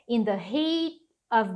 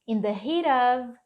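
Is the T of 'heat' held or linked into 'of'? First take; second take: held; linked. First: The T is held before 'of'. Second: The T runs straight into 'of'. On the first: "segurar esse T e depois continuar a frase" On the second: "você pode conectar esse T com of"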